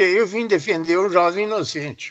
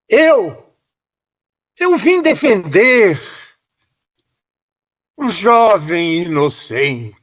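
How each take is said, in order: First: It is said straight through with no pause. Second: There is a hesitant pause after the first word. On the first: It sounds flat and unconvincing. The speaker calls it wrong. "do que eu vim defender um jovem inocente" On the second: The pause adds drama and emotion. The speaker calls it right. "Isso muda tudo"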